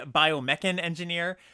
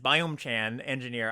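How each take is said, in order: First: The first word is split as bio plus mechan. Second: The first word is split as biome plus chan. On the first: The speaker calls it right. "It's really Biomechan Engineer" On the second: The speaker calls it wrong. "I'm gonna read this the entire format as Biome-chan Engineer"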